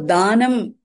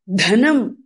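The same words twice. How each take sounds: First: "danam" said daa-nam; long vowel, plain d. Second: "Dhanam" with puff on d, short a; aspirated dh. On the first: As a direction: stretch the first a of "danam", no puff on d. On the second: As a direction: breathe out on Dh, keep "Dhanam" short. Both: Shown as a demonstration.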